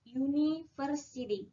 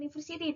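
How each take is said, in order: First: It begins with a 'y' glide before 'oo'. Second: It begins with a plain 'oo' vowel. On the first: The speaker calls it right. "tapi melainkan university" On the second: The speaker calls it wrong. "diucapkannya bukan university"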